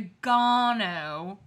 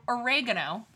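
First: "oregano" as or-i-GAH-no; mocked British "oregano", third syllable stressed; British pronunciation of oregano. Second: "oregano" as o-REG-a-no; everyday American "oregano", o-REG-a-no; American pronunciation of oregano. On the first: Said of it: "he had the fucking nerve to say". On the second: Shown as a demonstration. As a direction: stress the second syllable of "oregano". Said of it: "instead of oregano".

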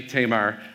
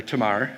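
First: Tamar with a long first vowel, TAY-mar; name variant. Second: Tamar as tuh-MAR, slowly; name as used. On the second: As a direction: stress the second syllable of Tamar. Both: Shown as a demonstration. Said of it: "as she went by".

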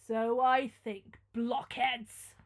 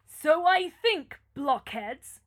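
First: Slow, louder scorn; scornful. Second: Scornful. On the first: Prince scorning his frightened servants, slow and loud. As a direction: sneer it at the fools. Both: Acted. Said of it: "said Manfred".

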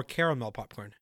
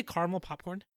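First: Caramel as CARE-uh-mel in caramel popcorn; three-syllable caramel. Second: Caramel as CAR-mul in caramel popcorn; two-syllable caramel. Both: Shown as a demonstration. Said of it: "Did you say caramel popcorn".

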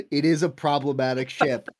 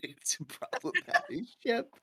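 First: Said in the usual way. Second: Giggling through the words; laughing. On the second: Real, not acted. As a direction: laugh as you repeat it. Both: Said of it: "can we just say that it's a problematic ship".

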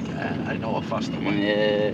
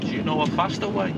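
First: Lower, slower put-on passenger voice; imitating the passenger. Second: Said in the usual way. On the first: Taxi driver mimicking his know-it-all passenger, low and slow. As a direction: drop low and slow, mocking the fare.

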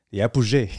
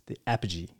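First: "apogee" said the French way, as ah-poo-ZHAY; French pronunciation. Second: Said in the usual way. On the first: Retold or imitated. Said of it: "how I knew how to say it in French". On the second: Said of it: "I didn't know how to say that word in English".

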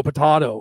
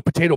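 First: Potato said with a broad AH in the middle; potato, middle syllable rhyming with "spa". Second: Potato said with a long AY in the middle; everyday American potato, "tay". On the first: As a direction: say potato as po-TAH-to. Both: Shown as a demonstration. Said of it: "when you go potato".

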